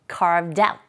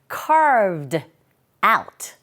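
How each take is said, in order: First: The d sound runs quickly into out. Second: The two words are said carefully and separately. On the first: "좀 빨리 발음될 때는 carved out 이렇게 들리게 됩니다" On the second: "이렇게 발음할 수도 있고요"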